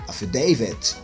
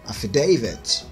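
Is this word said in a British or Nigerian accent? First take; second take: British; British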